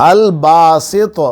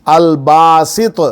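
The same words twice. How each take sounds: Both takes have the same delivery.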